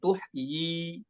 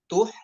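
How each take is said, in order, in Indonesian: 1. Kata berakhir dengan bunyi vokal 'i' yang ditambahkan. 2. Kata berakhir di 'tuh' tanpa vokal akhir. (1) "bukan tuh i" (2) "dibacanya dengan tuh tuh ya"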